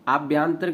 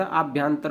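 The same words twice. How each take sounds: First: आभ्यंतरिक ending in रिक; wrong form. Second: आभ्यंतर ending on र; correct form. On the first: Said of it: "आभ्यंतरिक नहीं होता". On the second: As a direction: stop आभ्यंतर at तर, no इक. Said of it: "आभ्यंतर होता है". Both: Shown as a demonstration.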